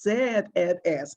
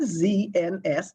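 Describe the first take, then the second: First: The letter Z is pronounced the British way. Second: The letter Z is pronounced the American way. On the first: This is how locals say the station's name. "it is" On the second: This is not how locals say the station's name. "our national radio station is not"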